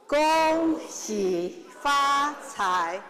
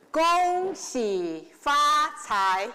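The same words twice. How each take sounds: The two takes are said the same way.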